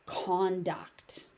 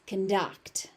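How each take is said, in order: First: Slow "conduct" as CON-duct; open, full CON in "conduct", stressed; stress on first syllable. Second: "conduct" as con-DUCT; weak first vowel in "conduct", stress on DUCT; stress on second syllable. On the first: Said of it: "As a noun". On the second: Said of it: "So as a verb". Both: Shown as a demonstration.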